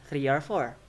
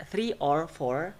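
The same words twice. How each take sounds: First: Three or four with or reduced to er; weakened with schwa. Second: Three or four with a strong, full or; full vowel. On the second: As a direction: keep or unreduced in three or four. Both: Shown as a demonstration. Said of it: "So or become er".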